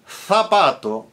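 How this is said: The z is pronounced as a th sound. "in Spanish, Castilian Spanish"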